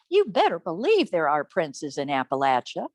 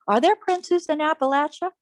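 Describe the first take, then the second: First: "You better believe" swooping, then dropping low for the rest; low, assured answer after a swooping "better believe"; emphatic answer. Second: "Are there princes in Appalachia?" high with a rising end; high rhetorical question, lifting on "Appalachia"; questioning tune. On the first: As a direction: punch "better believe", then settle low on "princes in Appalachia". Emphatic answer to her own question. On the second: Narrator asks herself, then answers. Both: A narrator's reading.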